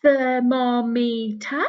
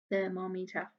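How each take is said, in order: First: "Thermometer" slow and loud, stretched; teacher drawing out "Thermometer"; slow loud model. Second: "Thermometer" repeated softly, at normal speed. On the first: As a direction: model "Thermometer" slowly for the children. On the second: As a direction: echo "Thermometer" quietly. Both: Shown as a demonstration. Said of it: "A long word".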